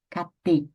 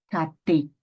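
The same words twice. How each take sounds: No difference in how they are said.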